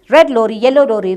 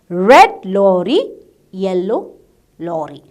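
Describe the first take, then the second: First: The phrase is said at a fast pace. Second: The phrase is said at a slow pace. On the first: "Again, more speed" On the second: "Miss will tell and give you the words slowly"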